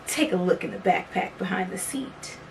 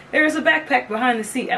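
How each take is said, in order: First: Said in the usual way. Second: Higher, hammed-up game show host. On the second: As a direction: announce it like a prize reveal. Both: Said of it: "I did my whole, like, game show voice".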